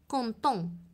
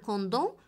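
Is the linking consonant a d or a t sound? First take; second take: t; d. First: The linking consonant sounds like t. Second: The linking consonant sounds like d. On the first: The speaker calls it right. "وإنما كونتون" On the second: The speaker calls it wrong. "لم أقل كوندون"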